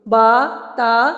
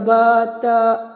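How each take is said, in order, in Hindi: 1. स्वर पूरा मुँह खोलकर बोला जाता है। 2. स्वर आधा बंद मुँह करके बोला जाता है। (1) "पूरा मुंह खोलिए" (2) "मुंह हल्का सा बंद करके नहीं रखना"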